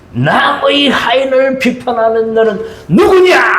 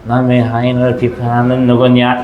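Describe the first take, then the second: First: It is read with boiling, angry emotion. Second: It is read plainly without emotion.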